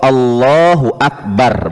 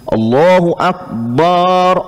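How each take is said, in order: First: The final syllable 'bar' is kept short. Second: The final syllable 'bar' is drawn out long. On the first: The speaker calls it right. "Bar itu kan pendek ya" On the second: The speaker calls it wrong. "Ada dulu sebagian muazin Allahu Akbar, Allahu Akbar katanya"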